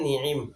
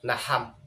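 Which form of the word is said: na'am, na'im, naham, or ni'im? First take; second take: ni'im; naham. First: Both vowels are i, with a throat sound between. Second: Both vowels are a, with an h between. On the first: "নুন এবং আইন উভয় হরফের মধ্যে জের দিয়ে" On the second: "আইনকে হা দ্বারা পরিবর্তন করে"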